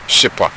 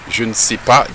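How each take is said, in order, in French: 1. Le ne tombe dans la forme raccourcie. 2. Chaque mot est prononcé en entier, y compris ne.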